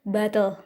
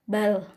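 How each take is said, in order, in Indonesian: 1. Terdengar bunyi vokal sebelum L di akhir. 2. Tidak ada vokal; L di akhir membentuk suku katanya. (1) "ada vowels-nya tuh" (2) "tanpa vowels"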